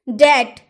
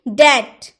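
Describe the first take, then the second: The two takes are said the same way.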